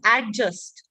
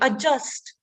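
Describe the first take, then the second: First: The D sound is clearly pronounced. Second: The D sound is left out. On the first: The speaker calls it wrong. "Do we pronounce it as adjust? No" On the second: The speaker calls it right. "The D is silent"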